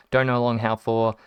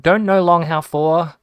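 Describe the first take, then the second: First: Said in the usual way. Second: Loud, high, slowed-down retold text; emphatic mock garbling. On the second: Repeating a garbled text to mum, mock emphatic. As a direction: hammer out the jumbled words, slowly and higher.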